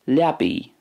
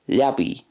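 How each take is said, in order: First: It ends in an 'ee'-like vowel. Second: The same.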